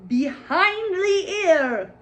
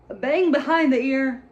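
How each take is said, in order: First: Stretched out, much higher and louder, slow; incredulous. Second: Repeated higher and louder, stress on bang; emphatic disbelief. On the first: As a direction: drag out behind the ear in disbelief. Mocking the movie's bangs. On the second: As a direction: hammer home bang in disbelief. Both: Real, not acted.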